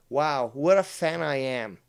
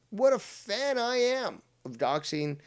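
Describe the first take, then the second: First: Louder, dry sarcasm; sarcastic. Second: Higher, sing-song mockery; mocking voice. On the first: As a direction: say it with sarcastic emphasis. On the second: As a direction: mimic the critic in a higher voice. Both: Shown as a demonstration.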